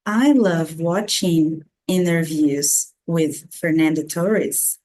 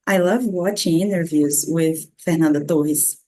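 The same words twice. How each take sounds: First: Slow model sentence in an English accent; English-accented TORRES, carefully paced; native English accent. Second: English sentence, name in Brazilian Portuguese; slow English ending in a Brazilian-pronounced name; Brazilian-accented name. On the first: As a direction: say the name with English sounds and accent. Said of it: "falar como um nativo de língua inglesa". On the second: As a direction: switch to Brazilian accent for FERNANDA TORRES. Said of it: "como uma boa brasileira". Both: Shown as a demonstration.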